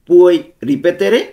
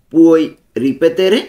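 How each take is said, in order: First: Puoi ripetere drawn out very slowly, syllable by syllable, louder; slow pronunciation model. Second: Said in the usual way. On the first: Shown as a demonstration. (খুব ধীরে, স্পষ্ট করে উচ্চারণ) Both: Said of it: "উচ্চারণগুলো ভালো মতো খেয়াল করব".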